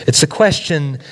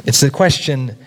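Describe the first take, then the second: No difference in how they are said.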